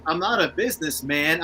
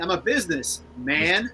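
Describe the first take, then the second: First: "businessman" run together as a single noun; businessman as one word. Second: "businessman" slowly split into "business" and "man". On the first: Quoting a rapper's line for the co-host, "businessman" as one word. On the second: Quoting a rapper's punchline for the co-host, "businessman" drawn apart as business, man. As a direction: stretch "businessman" into two words, business, man. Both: Retold or imitated. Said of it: "I got a quote for this".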